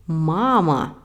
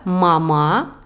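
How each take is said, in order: First: Mama with a long, slow first MA, then falling; stress on first syllable. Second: Mama with the final MA stressed and rising; stress on last syllable. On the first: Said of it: "je dis pas mama, mais mama". (mama, première syllabe longue et accentuée) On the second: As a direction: say mama French-style, weight on the last syllable. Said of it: "je dis pas mama". (mama accentué sur la dernière syllabe) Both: Shown as a demonstration.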